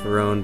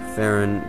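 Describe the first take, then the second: First: The stress is on the second syllable. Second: The stress is on the first syllable. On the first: "then it's obviously got to be uh, the second" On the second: "then I believe it's the first syllable"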